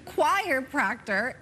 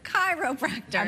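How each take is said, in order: First: It starts like 'choir' and ends with 'proctor'. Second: It starts like 'kai-ro' and ends with 'practor'. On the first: The speaker calls it wrong. "my friend always said choir proctor instead of chiropractor" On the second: The speaker calls it right. "instead of chiropractor"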